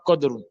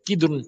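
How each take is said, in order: First: The first vowel sounds like 'u'. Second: The first vowel sounds like 'i'. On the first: The speaker calls it wrong. "pas kodrun" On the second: The speaker calls it right. "Il faut bien faire la prononciation, c'est kidrun"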